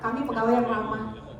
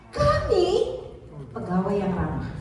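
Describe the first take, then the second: First: No word is given special stress. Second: The word kami carries the stress. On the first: No particular point stands out. The speaker calls it wrong. "nggak ada orang tahu" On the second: The point is who is friendly: us. The speaker calls it right. "Oh artinya kami"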